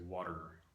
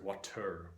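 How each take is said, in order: First: The final syllable is just an R sound. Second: A vowel is heard before the final R. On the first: The speaker calls it right. "we say water, water. That's a whole syllable" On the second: The speaker calls it wrong. "We don't say water"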